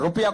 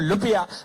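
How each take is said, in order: First: The word begins with an R sound. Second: The word begins with an L sound.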